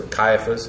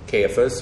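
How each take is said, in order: First: Caiaphas said KY-uh-fus; first-syllable KY. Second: Caiaphas said KAY-uh-fus; first-syllable KAY. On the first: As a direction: say Caiaphas with a long I, rhyming with "sky". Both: Shown as a demonstration. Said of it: "however you want to pronounce his name".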